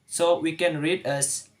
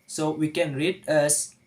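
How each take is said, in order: No difference in how they are said.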